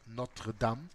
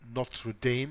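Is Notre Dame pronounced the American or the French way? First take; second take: French; American. First: It is pronounced the French way, not American. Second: It is pronounced with an American English accent.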